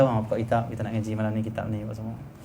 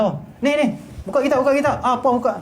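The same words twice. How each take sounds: First: Softer, relaxed invitation; nice, gentle asking. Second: High, impatient mock scolding; harsh ordering. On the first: Shown as a demonstration. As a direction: ask students kindly to open the book. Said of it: "Cakap elok masa dah suka". (cakap elok dan lembut) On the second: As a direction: order students about crossly, as a demonstration. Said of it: "Tak suka". (contoh arahan secara marah)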